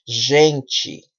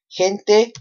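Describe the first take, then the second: First: The ending is a ch sound. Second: The ending is a plain t sound.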